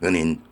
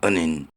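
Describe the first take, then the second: The two takes are said the same way.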